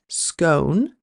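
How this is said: The vowel rhymes with bone, middle-country style.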